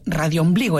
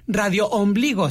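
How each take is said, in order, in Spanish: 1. Las dos palabras se dicen juntas, como una sola. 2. Las dos palabras se dicen separadas. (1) "en una sola palabra" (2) "no es"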